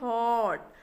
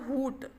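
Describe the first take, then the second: First: The vowel is an open 'uh' sound. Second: The vowel is a short 'oo' sound. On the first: The speaker calls it right. "यू जो होता है वह silent होता है" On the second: The speaker calls it wrong. "हुट नहीं पढ़ेंगे, बिल्कुल गलत है"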